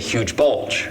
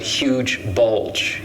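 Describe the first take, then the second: First: One word is stressed more than the other. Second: Both words carry equal, heavy stress. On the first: The speaker calls it wrong. "You don't say" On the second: The speaker calls it right. "These are equal, right?"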